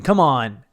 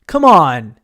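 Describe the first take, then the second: First: Somewhat louder jokey protest; playful, louder appeal; mock protest. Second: Loud, drawn-out jokey yell; much louder playful appeal; mock shouted protest. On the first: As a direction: push it out as a kidding objection. Protests he is only kidding. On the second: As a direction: belt out a kidding objection. Repeats the protest, escalating.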